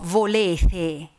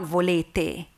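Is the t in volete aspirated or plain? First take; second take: aspirated; plain. First: The t is aspirated, like a th sound. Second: The t is a plain, unaspirated stop. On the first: This is the Tuscan Sienese way of saying it. The speaker calls it right. "it's the P and the T as well, when they are in between two vowels" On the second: This is the standard way of saying it. The speaker calls it wrong. "not volete"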